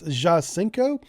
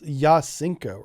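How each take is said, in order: First: The name begins with a J sound. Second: The name begins with a Y sound. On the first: The speaker calls it wrong. "I'm gonna say this wrong again" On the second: The speaker calls it right. "Like the J is a Y or something"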